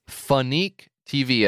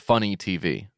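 First: The name sounds like fun plus unique. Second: The name sounds like the word funny. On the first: The speaker calls it wrong. "It looks like it's Phonique TV, as in fun plus unique TV" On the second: The speaker calls it right. "It's actually pronounced Funny TV"

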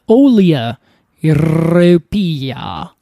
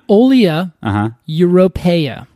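First: It is said in a put-on, showy accent. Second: It is said in the speaker's everyday accent.

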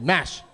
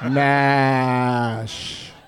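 First: The word is said quickly. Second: The word is drawn out slowly. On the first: "MASH is not slowly" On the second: "that was slowly"

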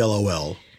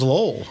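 First: It is said as three separate letters. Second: It is said as one single word. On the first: "It used to be LOL" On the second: "And now it's lol. It's become a word"

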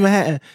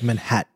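First: The word is said casually, with reduced sounds. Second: Every sound in the word is clearly enunciated. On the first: This is the everyday New York way of talking. The speaker calls it wrong. "I'm from New York. So we would be like" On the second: This is proper, correct speech a parent demands. The speaker calls it right. "I had to always enunciate"

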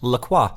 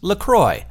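First: The name is said the French way. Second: The name ends rhyming with 'enjoy'. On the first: The speaker calls it wrong. "I figured that it was French" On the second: The speaker calls it right. "it's pronounced LaCroix, like enjoy"

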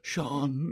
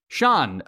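First: The name is said with weak, feeble energy. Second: The name is said with strong, full energy. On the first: The speaker calls it right. "it's very weak" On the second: The speaker calls it wrong. "or he doesn't say it like that"

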